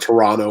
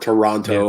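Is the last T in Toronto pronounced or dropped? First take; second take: dropped; pronounced. First: The final T sound is dropped. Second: The final T sound is clearly pronounced.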